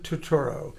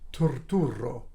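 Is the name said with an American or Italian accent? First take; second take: American; Italian. First: It is said with an American accent. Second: It is said with an Italian accent. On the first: "That's how they say it here" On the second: "In Italy, they say"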